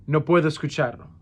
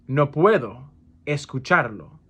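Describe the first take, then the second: First: Said in the usual way. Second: "No puedo", pause, "escucharlo"; broken up for learners. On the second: Shown as a demonstration. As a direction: split after "puedo" with a clear gap before "escucharlo". Teacher repeats phrase broken up.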